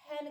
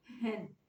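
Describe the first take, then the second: First: "हैन" begun with an airy h from the throat; breathy throat h. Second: Slow "हैन" with its h voiced from the chest; "हैन" drawn out, h from the chest; heavy chest h. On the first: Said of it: "इसकी सांस की आवाज़ निकलनी चाहिए". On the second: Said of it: "हैन को ही मैं हैन करके पढ़ूँ". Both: Shown as a demonstration.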